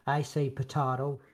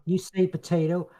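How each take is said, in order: First: "potato" with a broad ah, puh-TAH-toh; drawn-out "potato", long ah replacing the ay; altered pronunciation. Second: "potato" with an ay, puh-TAY-toh, drawn out; slow "potato", middle vowel as in mate; usual pronunciation. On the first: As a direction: say "potato" slowly, middle vowel as in father. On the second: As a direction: say "potato" slowly, middle rhyming with day. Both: Shown as a demonstration. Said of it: "Isn't that not in the song?".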